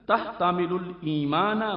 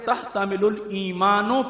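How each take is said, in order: First: The last word ends with an 'a' sound. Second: The last word ends with an 'o' sound. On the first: The word is the object of the verb. The speaker calls it right. "अल ईमान मफूल भी है" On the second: The object is wrongly made the subject. The speaker calls it wrong. "यानी मफूल को फाइल बना दिया"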